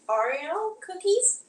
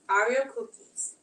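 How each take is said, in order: First: It is said in an imitated Wisconsin accent. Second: It is said in an imitated New York accent. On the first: "So from Wisconsin" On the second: "if you're from New, New York?"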